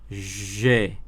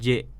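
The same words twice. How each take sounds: First: The consonant is a soft 'zh' sound. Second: The consonant is a hard 'dj' sound. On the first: The speaker calls it right. "tapi J ... hurufnya itu di antara J dan Z" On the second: The speaker calls it wrong. "bukan J"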